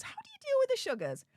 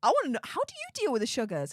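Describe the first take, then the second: First: Much higher, fast, sing-song question; playful high repeat. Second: Said in the usual way. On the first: Real, not acted. Streamer repeats his question to chat, playful high sing-song. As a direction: repeat it way up high, teasing and curious.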